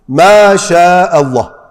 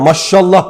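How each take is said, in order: First: The vowel before 'llah' is drawn out long. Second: The vowel before 'llah' is short and clipped. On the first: The speaker calls it right. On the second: The speaker calls it wrong.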